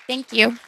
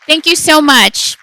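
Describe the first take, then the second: First: Said in the usual way. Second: Big, slow called-out thanks; loud thanks. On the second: Real, not acted. Calling out thanks to audience.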